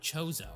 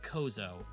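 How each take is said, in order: First: The name begins with a ch sound. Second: The name begins with a k sound.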